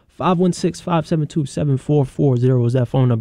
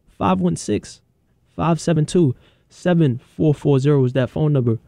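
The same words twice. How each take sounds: First: It is read at normal speed. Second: It is read slowly.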